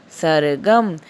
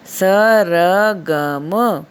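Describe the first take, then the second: First: Said in the usual way. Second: सरगम split as sa-ra-gam, very slow and louder; syllable by syllable. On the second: Shown as a demonstration. Teacher spelling सरगम out for pupils to copy. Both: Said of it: "मेरे साथ-साथ इसको भी बोलिए".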